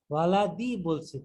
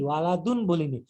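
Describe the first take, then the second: First: ওয়ালাদি slow, ending clearly -di. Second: Said in the usual way. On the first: Shown as a demonstration. Teacher correcting the ending, slow and clear.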